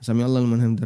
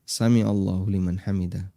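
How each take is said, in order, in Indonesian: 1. Dibaca terlalu cepat, kata-katanya saling tergesa-gesa. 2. Dibaca dengan tempo normal, tidak terburu-buru. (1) "terlalu cepat, nggak dihitung itu" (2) "Dengan pengucapan yang normal ya"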